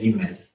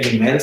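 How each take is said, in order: First: The word has a Hebrew-style pronunciation. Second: The word has a Spanish-style pronunciation. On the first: The speaker calls it right. "se dice Gimel" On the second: The speaker calls it wrong. "en hebreo no se dice Gimel"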